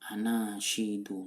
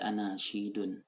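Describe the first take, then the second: First: The word ends on a plain u vowel. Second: The word ends with an added n sound. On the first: The speaker calls it right. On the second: The speaker calls it wrong.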